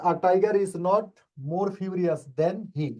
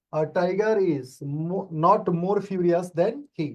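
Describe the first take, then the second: First: Slow, deliberate, word by word; slow model sentence. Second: "not" hit and "more furious" slowed down; stress on not. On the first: Teacher reading the answer sentence slowly to the class. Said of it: "teacher reads answer slowly". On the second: Teacher repeating the answer, stressing not for the class. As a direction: lean on "not" and slow down. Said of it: "teacher repeats answer, stressing not". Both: Shown as a demonstration.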